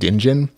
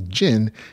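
First: The word starts with a pronounced D sound. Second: The word starts without any D sound. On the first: The speaker calls it wrong. "I kept saying dingin because there's a D in there" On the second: The speaker calls it right. "the D is supposed to be silent. It's just supposed to be djinn"

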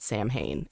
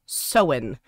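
First: It is said like 'sam-hain', with an m. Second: It is said like 'sow-en', without an m. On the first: The speaker calls it wrong. "a lot of people pronounce it Samhain, and it's not" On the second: The speaker calls it right. "It's pronounced Sowen"

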